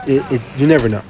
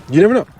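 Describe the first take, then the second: First: Said in the usual way. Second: Higher and louder, rising at the end; exasperated exclamation. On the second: Real, not acted. Streamer venting at his viewers, exasperated and loud. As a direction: throw it out, fed up. Rant about unpredictable lobbies.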